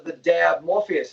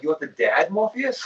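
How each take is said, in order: First: "dab" said slowly with a clear final b; slow quoted request. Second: "dad" with a final d, asked as a question with a rise at the end; puzzled mishearing. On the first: Customer at the shop asks for "the dab Morpheus", slow and deliberate. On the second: He mishears the customer in the shop, confused question with a rising end. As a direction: repeat back "the dad Morpheus?" as a confused question. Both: Retold or imitated.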